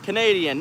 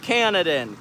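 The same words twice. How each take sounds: First: Canadian, said properly as ca-NAY-dee-an; the fixed reading Canadian; Canadian, said the right way after the slip; corrected pronunciation. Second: Misreading it as Canadan; Canadan, clipped wrong version; wrong pronunciation. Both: Shown as a demonstration. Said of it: "Not Canadan, Canadian".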